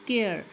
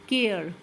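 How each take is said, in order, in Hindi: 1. आख़िरी e silent है। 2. आख़िरी e साइलेंट है।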